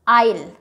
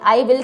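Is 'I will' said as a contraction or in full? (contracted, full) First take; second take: contracted; full. First: The two words merge into one short syllable. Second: The two words are said separately and fully. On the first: This is the form used in speech. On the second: This is the form used in writing.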